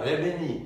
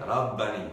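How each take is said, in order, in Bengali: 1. স্বরধ্বনিগুলো 'ah'-এর বদলে 'eh'-এর মতো শোনায়। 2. স্বরধ্বনিগুলো একটা খোলা 'ah'-এর মতো শোনায়। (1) "আপনি বলবেন না রেবেনি" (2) "আপনি বলবেন রাব্বানি"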